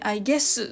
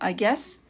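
First: The final s is pronounced strongly and distinctly. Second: The final s is pronounced lightly and softly. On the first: The speaker calls it wrong. "カタカナのようにI guess とはっきりす" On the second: The speaker calls it right. "S の部分を軽く発音するというのがポイントになります"

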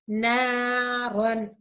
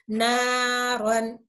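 No difference in how they are said.

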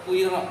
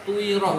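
No difference in how they are said.

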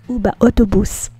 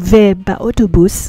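First: The word for 'and' is pronounced 'u'. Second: The word for 'and' is pronounced 've'. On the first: The speaker calls it right. "we say u instead of ve" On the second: The speaker calls it wrong. "instead of saying ve ba autobus"

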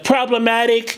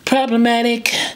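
First: The voice is heavier, lower and fuller. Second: The voice is light, high and breathy. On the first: "Instead of problematic" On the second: "like a lighter, maybe like a higher laryngeal approach"

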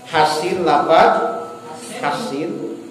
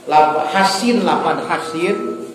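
No difference in how they are said.

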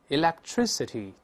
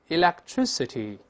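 No difference in how they are said.

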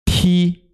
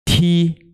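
No difference in how they are said.

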